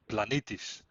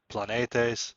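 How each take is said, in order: First: It is said in the Byzantine or modern Greek style. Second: It is said in the older, classical Greek style.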